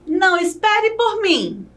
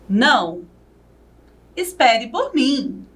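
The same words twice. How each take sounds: First: It is said without a pause after Não. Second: There is a pause after Não.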